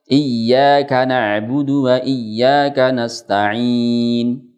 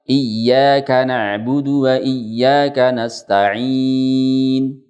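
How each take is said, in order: First: The final long vowel is held for four counts. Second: The final long vowel is held for six counts. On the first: "Yang empat harokat" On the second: "Yang enam harokat"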